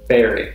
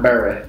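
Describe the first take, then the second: First: The vowel sounds like 'eh'. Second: The vowel sounds like 'a' in 'bat'. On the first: The speaker calls it right. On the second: The speaker calls it wrong. "not Barry"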